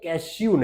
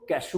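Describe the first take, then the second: First: The last vowel has a 'y' glide, 'yoo'. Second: The last vowel is a plain 'oo' sound. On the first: The speaker calls it wrong. "कैश्यू नहीं बोलते" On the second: The speaker calls it right. "काजू को कैशू बोलते हैं"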